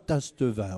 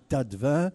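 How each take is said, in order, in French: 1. Un son S s'entend avant le T. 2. Aucun son S ne s'entend avant le T. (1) "on ne dit pas Tastevin" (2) "on dit Tatevin"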